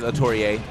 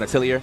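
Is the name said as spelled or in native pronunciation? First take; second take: native; as spelled. First: The name is said in its native pronunciation. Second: The name is said as its spelling reads. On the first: The speaker calls it right. "we got the actual pronunciation. It is Atelier" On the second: The speaker calls it wrong. "we were calling that man Atelier because we were just reading it"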